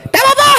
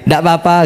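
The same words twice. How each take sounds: First: It sounds annoyed, with rising pitch. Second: It sounds calm and sincere.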